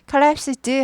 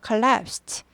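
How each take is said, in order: First: The ending is a voiced d sound. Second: The ending is a voiceless t sound. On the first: The speaker calls it wrong. "원래는 드지만 ... collapsed 하지 않고" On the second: The speaker calls it right. "t 발음이 납니다 ... 무성음화돼서"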